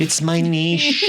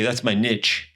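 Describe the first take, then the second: First: NICHE drawn out as "neesh", slow and higher; fancy "neesh". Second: NICHE said "nitch", rhyming with pitch. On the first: Shown as a demonstration. Host shows off the sophisticated word, niche as fancy "neesh". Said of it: "Oh, you're so fancy". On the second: Acted. Host quotes young people, niche as "nitch". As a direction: say niche the slangy way, short i and tch. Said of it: "young people, we all say".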